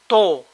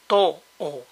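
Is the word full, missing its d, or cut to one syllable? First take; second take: one syllable; missing d. First: The whole second syllable drops, leaving one syllable. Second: The d drops, leaving two vowels in a row. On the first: "D between vowels is weak or disappears altogether" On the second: "may sound to-o"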